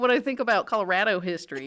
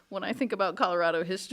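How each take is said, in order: First: Colorado is said with an exaggerated Midwestern accent. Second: Colorado is said in a non-local, non-Midwestern way.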